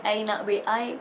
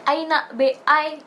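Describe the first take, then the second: First: Said in the usual way. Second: Mock Malaysian English, slow and raised; playful Malaysian accent. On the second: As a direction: imitate a Malaysian student saying it. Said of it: "kayak gitu".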